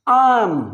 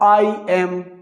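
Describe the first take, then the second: First: It is said as one short contracted syllable. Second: It is said as two full separate syllables. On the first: The speaker calls it right. "मेरे साथ कहें, मिलके कहें" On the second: The speaker calls it wrong. "हमारी Pakistani English"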